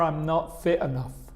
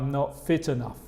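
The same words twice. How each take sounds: First: The t at the end of fit is dropped. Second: The t at the end of fit is pronounced. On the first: This is casual, informal speech. "probablemente voy a quitar el T de fit" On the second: This is more formal speech. "Es más formal"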